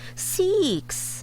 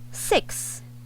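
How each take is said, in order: First: The vowel is long, like 'ee'. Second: The vowel is short and clipped. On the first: The speaker calls it wrong. "this one, long E" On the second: The speaker calls it right. "Short E, six"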